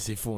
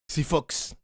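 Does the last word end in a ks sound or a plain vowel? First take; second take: plain vowel; ks sound. First: The last word ends with a plain vowel. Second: The last word ends with a ks sound. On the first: The speaker calls it right. "on dit c'est faux" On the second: The speaker calls it wrong. "On dit pas c'est Fox"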